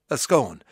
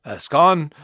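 First: "scone" pronounced to rhyme with "phone"; long-O "scone", like skohn; scone rhyming with phone. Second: "scone" pronounced to rhyme with "gone"; short-O "scone", like skon; scone rhyming with gone. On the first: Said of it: "does it rhyme with phone". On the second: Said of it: "does it rhyme with gone". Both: Shown as a demonstration.

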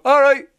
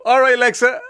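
First: Very high, loud one-line impression; pitched-up mimicked reply; Kerry Harrington. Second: Higher, louder call to the assistant; lightly acted wake-up call; morning greeting to Alexa. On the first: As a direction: answer back high and loud. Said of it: "the voice of Kerry Harrington go". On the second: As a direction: hail the device in a raised voice. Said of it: "you go".

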